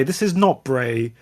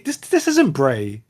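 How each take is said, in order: First: "not" pressed firmly and slowed; stress on NOT. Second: Said in the usual way. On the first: Shown as a demonstration. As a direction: stress the word "not" slowly.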